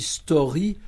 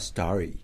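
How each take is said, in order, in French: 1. Il se prononce à la française. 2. Il se prononce à l'anglaise. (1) "On dit story comme on peut dire scory" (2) "on ne dit pas story"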